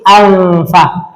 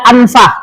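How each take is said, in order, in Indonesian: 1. Bunyi n adalah bunyi nasal panjang yang ditahan. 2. Bunyi n pendek dan diucapkan dengan jelas. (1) "bunyi lama itu alfa" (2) "Tidak boleh dibaca anfa"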